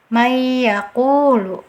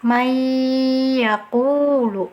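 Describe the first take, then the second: First: The n merges into y with no nasal hum. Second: The n merges into y with a long nasal hum. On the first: The speaker calls it wrong. "bacaan yang keliru... tidak ada dengungnya" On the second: The speaker calls it right. "Ditahan dulu dengungannya"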